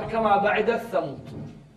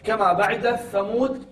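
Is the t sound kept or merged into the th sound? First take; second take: merged; merged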